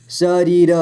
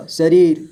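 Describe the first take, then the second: First: शरीर as स, री, र; letter by letter. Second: Said in the usual way. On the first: Shown as a demonstration. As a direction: sound the final र of शरीर separately. (शरीर को तोड़कर: स, री, र) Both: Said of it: "थोड़ा फास्ट पढ़ेंगे".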